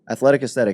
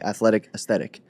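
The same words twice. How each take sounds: First: It is said very fast. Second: It is said at a normal pace.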